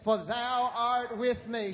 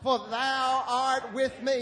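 First: It is said at a normal speaking volume. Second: It is shouted out loudly. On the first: "Say it again" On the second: "Shout it out"

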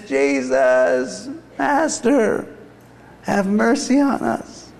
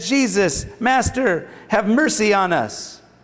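First: It is called out in a weak, scratchy voice. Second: It is read in a plain, normal voice.

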